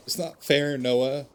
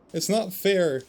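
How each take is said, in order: First: Louder, higher cry of grief; upset outburst, raised; anguished protest. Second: Much higher, louder wail on "not"; the repeat pushed higher and louder in grief; anguished protest, bigger. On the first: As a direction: protest the loss, voice rising. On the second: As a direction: break into a pained cry, hitting "not". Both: Acted. Grieving character protests loss.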